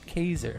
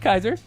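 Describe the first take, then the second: First: The name rhymes with laser. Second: The name does not rhyme with laser. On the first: The speaker calls it right. "Rhymes with laser" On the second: The speaker calls it wrong. "Not Kaiser"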